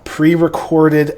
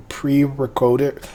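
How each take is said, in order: First: Said in the usual way. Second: "pre-recorded" slowly said as "pre-recoded"; slip of pronunciation. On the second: Real, not acted. Host stumbling over "pre-recorded" as "pre-recoded", tongue-tied. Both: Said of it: "wow, pre-recorded episode".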